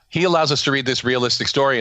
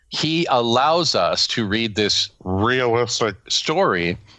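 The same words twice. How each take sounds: First: 'Realistic story' is said in a plain, ordinary voice. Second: 'Realistic story' is said in a mocking, ironic voice.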